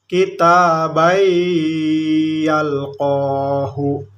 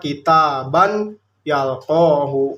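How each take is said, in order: First: The n merges into the following y. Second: The n is clearly pronounced before the y. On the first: The speaker calls it right. "tapi kita baik yalqohu" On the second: The speaker calls it wrong. "tidak boleh dibaca kitaban yalqohu"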